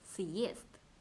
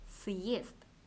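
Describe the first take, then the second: Both takes have the same delivery.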